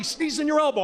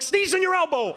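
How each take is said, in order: First: A higher, nagging repeat of the order; mock nag; mild mock yell. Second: Much higher, sharp nagging order; mock scolding. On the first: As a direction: scold him like a fed-up girlfriend. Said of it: "She's always yelling at me". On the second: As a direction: bark the rule at him mid-sneeze. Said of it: "She's like".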